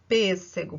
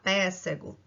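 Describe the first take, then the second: First: The first vowel is a closed e sound. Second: The first vowel is an open e sound. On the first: The speaker calls it right. "a gente precisa botar o acento circunflexo para dizer que o som é fechado" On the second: The speaker calls it wrong. "pra a gente não falar pêssego"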